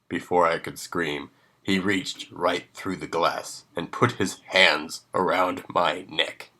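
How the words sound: The voice stays steady and adult.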